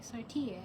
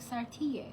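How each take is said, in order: First: The name is said with an Italian-style accent. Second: The same.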